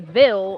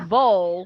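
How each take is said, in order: First: The ending rhymes with 'fill'. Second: The ending rhymes with 'full'. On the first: The speaker is not from here. "they're not from here" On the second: The speaker is a local. "like V U L L, like I do, we're local"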